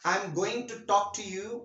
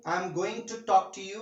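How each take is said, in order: First: 'Going to' is said in full, two words. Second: The same.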